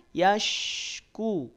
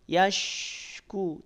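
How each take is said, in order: Both takes have the same delivery.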